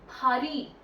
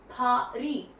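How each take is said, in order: First: Paris is said with a French pronunciation. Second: The same.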